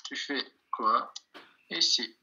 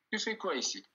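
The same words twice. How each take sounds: First: Slow "Tu fais quoi ici" with pauses; word by word. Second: Said in the usual way. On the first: Shown as a demonstration. Teacher translating the question for learners, "Tu fais quoi ici" word by word.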